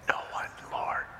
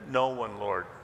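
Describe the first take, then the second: First: It is said in a whisper. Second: It is said in a normal voice.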